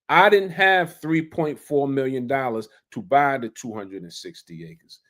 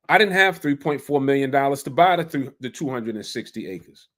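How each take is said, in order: First: It is spoken at a slower, deliberate pace. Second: It is spoken at a normal, quicker pace.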